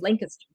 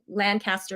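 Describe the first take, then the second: First: It is said the local way. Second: It is said the outsider's way. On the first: The speaker is from the town. The speaker calls it right. "really Lancaster" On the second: The speaker is not from the town. The speaker calls it wrong. "Like Lancaster isn't"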